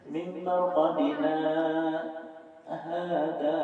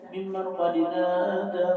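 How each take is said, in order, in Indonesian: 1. Ada jeda singkat setelah qadina. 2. Kata-kata itu menyambung tanpa jeda. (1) "Itu saktah" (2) "Jangan dibaca"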